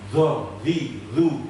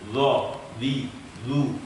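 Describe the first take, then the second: First: Air escapes audibly with each syllable. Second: The breath is held back with firm voicing. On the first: The speaker calls it wrong. "bukan begitu" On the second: The speaker calls it right. "nafas itu ... tertahan, tidak keluar"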